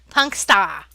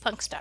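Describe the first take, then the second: First: It is said in a New Jersey accent. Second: It is said in the speaker's plain accent.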